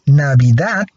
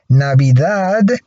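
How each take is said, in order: First: The final consonant is a voiceless t. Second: The final consonant is a voiced d. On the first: "but Navidad is voiceless" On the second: "Navidad is voiced"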